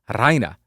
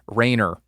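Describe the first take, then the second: First: The R is rolled with a trill. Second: The R is said plainly, without a roll. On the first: The speaker calls it right. "That is so much more fun" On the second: The speaker calls it wrong. "That's not fun"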